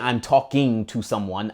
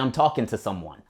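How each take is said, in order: First: The ending of 'talking' keeps its full ing sound. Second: The ending of 'talking' drops the final g sound. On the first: "I don't say" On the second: "Casually, ... I say"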